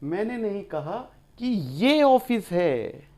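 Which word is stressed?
ये. The word 'ye' carries the main stress. The office is some other place, not this one. "ये office थोड़ा ही कहा था मैंने, वो तो कहीं और था"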